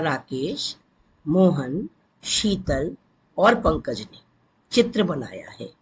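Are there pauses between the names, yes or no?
yes. Short pauses separate each of the names.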